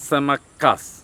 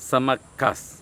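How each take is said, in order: Both takes have the same delivery.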